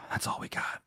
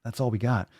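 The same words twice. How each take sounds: First: Breathy sigh into a whispered line; sigh, then whisper it. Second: Said in the usual way. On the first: Shown as a demonstration. Repeating the sign-off line.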